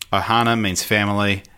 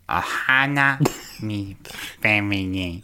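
First: It is said in a normal voice. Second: It is said in an imitation of Stitch's voice.

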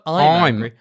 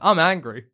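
First: The vowel in 'I'm' sounds like 'eye'. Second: The vowel in 'I'm' sounds like 'ah'. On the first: "It's not" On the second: "say I say, instead of I, it's A-H"

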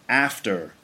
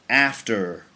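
The two takes are said the same way.

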